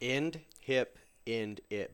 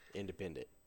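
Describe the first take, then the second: First: The syllables are said slowly, as separate words. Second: The syllables are run together quickly as one word.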